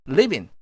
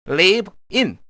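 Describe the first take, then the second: First: The two words run together as one. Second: The two words are said separately.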